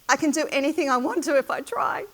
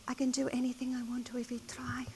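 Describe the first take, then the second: First: It is said at a loud volume. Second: It is said at a soft volume.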